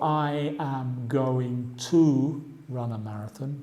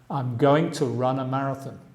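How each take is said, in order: First: I am is said as two full words. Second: I am is contracted to one syllable. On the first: The speaker calls it wrong. "no digo" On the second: The speaker calls it right.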